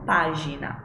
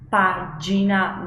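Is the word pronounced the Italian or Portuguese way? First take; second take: Portuguese; Italian. First: The word is pronounced the Portuguese way. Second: The word is pronounced the Italian way. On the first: The speaker calls it wrong. "não página" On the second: The speaker calls it right.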